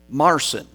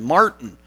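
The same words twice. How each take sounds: First: "Marcin" said the German way, "MAR-tseen" with a ts sound; German name. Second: Said in the usual way. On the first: Shown as a demonstration. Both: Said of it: "which is the German name".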